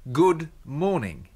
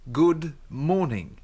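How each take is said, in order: Both takes have the same delivery.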